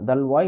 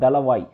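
First: The word is said with two syllables. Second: The word is said with three syllables. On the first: This is the form written in English books. "இங்கிலீஷ்ல புக்ஸ்ல எழுதி வச்சிருக்காங்க" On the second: This is the actual original title. "Actual name பார்த்தீங்கன்னா"

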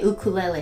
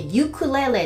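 First: It begins with an 'oo' sound. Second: It begins with a 'you' sound. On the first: "ハワイの人はね、みんなね、ウクレレって言う" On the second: "U をそのままU って言って、ユクレレって発音しちゃう"

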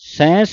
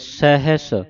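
First: The word has a nasal vowel and no h sound. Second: The word has an h sound and no nasal vowel. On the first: The speaker calls it wrong. "ਸੈਂਸ ਨਹੀਂ ਕਹਿਣਾ" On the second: The speaker calls it right. "ਬੋਲਣਾ ਹੈ ਸਹਿਸ ਸਿਆਣਪਾ"

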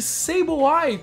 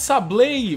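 First: The ending is said like English 'eye'. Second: The ending is not said like English 'eye'. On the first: The speaker calls it right. "vamos chamar de Sableye, porque é o nome dele, a pronúncia é correta" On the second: The speaker calls it wrong. "vamos parar de chamar esse Pokémon de Sableye"

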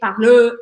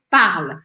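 First: A vowel sound is added after the final L. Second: The sound stops on the final L. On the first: The speaker calls it wrong. "Eu não falo parler, parleu" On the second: The speaker calls it right. "eu vou parar o som na letra L"

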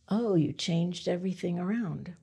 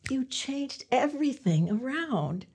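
First: It sounds disapproving, as if disliking the change. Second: It sounds pleased, as if liking the change.

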